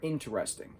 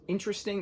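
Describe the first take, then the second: First: The word is said with four syllables. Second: The word is said with three syllables. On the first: "or four syllables" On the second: "You can use three syllables"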